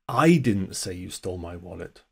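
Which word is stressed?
I. The stress falls on the word 'I'. Someone else said it. "Someone else said it. Wasn't me. I didn't say it"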